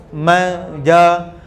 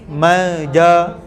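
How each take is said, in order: The two takes are said the same way.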